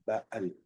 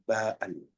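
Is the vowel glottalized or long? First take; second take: glottalized; glottalized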